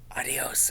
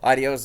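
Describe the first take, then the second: First: It is whispered. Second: It is spoken in a normal voice.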